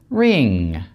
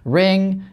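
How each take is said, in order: First: The vowel is raised, tense and slightly longer. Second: The vowel is standard and not raised.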